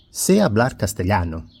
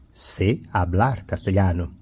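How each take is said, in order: First: Said in the usual way. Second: Sé, then a pause, hablar separated too; Sé set apart. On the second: Shown as a demonstration. Teacher repeats the example to show the verb, Sé set apart. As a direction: read word by word, isolating Sé. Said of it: "se refiere al verbo saber".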